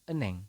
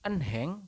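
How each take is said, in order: First: The h sound in the middle is silent. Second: The h sound in the middle is pronounced. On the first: The speaker calls it right. "tetapi dibacanya adalah eneng" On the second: The speaker calls it wrong. "ini bukan enheng"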